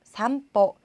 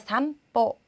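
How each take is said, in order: No difference in how they are said.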